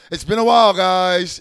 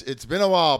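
First: Big hearty it's been a while, called out loud; loud, warm welcome back; loud greeting. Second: Said in the usual way. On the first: Real, not acted. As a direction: boom out "while" like greeting the crowd. Greeting fans after a long absence.

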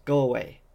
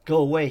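First: Firm, raised voice. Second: Shouting. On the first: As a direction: tell them to leave, firmly. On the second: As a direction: yell at them to leave. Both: Acted. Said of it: "he repeated".

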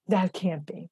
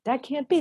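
First: Said in the usual way. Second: Disbelief. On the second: Retold or imitated. Disbelief about hungry nearby kids.

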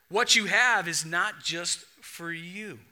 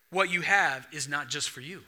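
First: Each word set down slowly, HAVE leaned on; slow the line right down and let "have" land; slow, weighty repeat. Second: Said in the usual way. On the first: Shown as a demonstration. Preacher repeats his point to the church, slow and weighty. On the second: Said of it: "Number two, I learned from this story".

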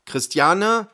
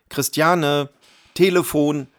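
First: Much higher questioning call of her name; husband calling once more, higher and asking; rising questioning call. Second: Husband yelling to his wife about the phone; calling loudly. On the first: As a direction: call "Christiane?" again, climbing up on the end. Husband calls wife again. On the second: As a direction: call out, higher and louder. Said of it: "rief er so laut er konnte". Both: A narrator's reading.

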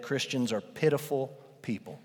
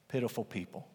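First: Said in the usual way. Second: Soft hushed repeat; quiet echo. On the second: Shown as a demonstration. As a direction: echo the phrase much softer, almost to yourself.

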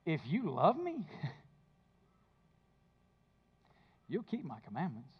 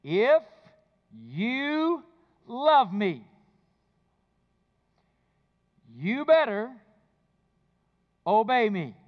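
First: Softer, tender, with a small laugh between the words; gentle invitation. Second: Stern demand. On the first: Shown as a demonstration. Pastor giving the true reading of the verse, soft and tender. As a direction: offer it as a loving promise, not a rule. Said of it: "Here's what the verse really says". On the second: Retold or imitated. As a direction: make love sound like an order you must obey. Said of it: "Here's the way I heard that verse".

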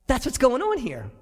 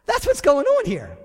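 First: Said in the usual way. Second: Higher and louder, stressing "on"; "That's what's going on here" punched higher and louder; emphatic. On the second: Shown as a demonstration.

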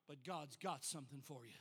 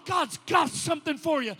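First: But God's got something for you said much lower and much softer; hushed refrain. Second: God's got something for you shouted, louder, with a falling close; shouted refrain. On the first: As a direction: drop it to an intimate near-murmur. Same refrain, now hushed. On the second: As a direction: cry it out over the congregation. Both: Acted.

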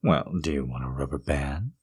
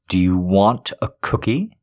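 First: Soft whispered offer; whispering. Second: Said in the usual way. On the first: Acted. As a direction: ask in a hush.

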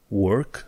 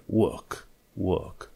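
First: "work" with the R pronounced; slow "work" with its R, rising; wrong, R sounded. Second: "work" without the R, long "uh" vowel; British silent R. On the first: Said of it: "Work nu e work". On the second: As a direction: drop the R in "work". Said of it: "atunci R-ul nu se pronunță". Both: Shown as a demonstration.

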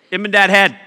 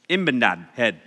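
First: Laughing. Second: Said in the usual way. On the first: Shown as a demonstration. Joke name said twice.

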